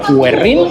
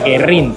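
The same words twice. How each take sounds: First: A 'w' sound is heard after the g. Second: The g is followed directly by the e. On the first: This follows the written diaeresis. "pero tiene la diéresis, así que sería Guerrín" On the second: This is how most people say the name. "casi todo el mundo, incluso argentinos mismos, me dicen tienes que ir a Guerrín"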